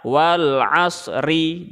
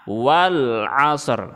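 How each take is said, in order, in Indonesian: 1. Kata ini diakhiri dengan vokal i tambahan. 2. Kata ini berhenti mendadak pada konsonan r. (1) "Jadi tidak usah dibaca wal 'asri. Jangan ya" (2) "ri-nya tidak dibaca tetapi diberhentikan. Caranya"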